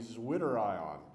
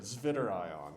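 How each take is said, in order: First: It is pronounced with ordinary English sounds. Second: It is pronounced with German-style sounds.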